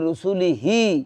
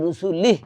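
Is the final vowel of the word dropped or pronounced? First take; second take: pronounced; dropped. First: The final short vowel is pronounced. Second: The final short vowel is dropped. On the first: This is the full written form of the word. "শব্দটা ছিল রুসুলিহি" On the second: The reader stops at this word. "কিন্তু রুসুলিহ পড়লাম"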